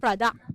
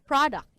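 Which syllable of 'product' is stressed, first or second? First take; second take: second; first. First: The stress is on the second syllable. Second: The stress is on the first syllable. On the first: The speaker calls it wrong. "not product" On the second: The speaker calls it right. "it's at the first syllable"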